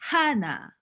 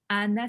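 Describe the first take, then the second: First: The name starts with an audible h sound. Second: The name starts directly with a vowel. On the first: This is the name's real pronunciation. The speaker calls it right. "c'est Hana" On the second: This is how French people say the name. The speaker calls it wrong. "c'est pas Anna"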